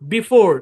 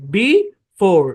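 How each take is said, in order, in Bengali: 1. দুটি সিলেবল বিরতি ছাড়া মিশিয়ে বলা হয়। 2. দুটি সিলেবল আলাদা করে, মাঝখানে বিরতি দিয়ে বলা হয়।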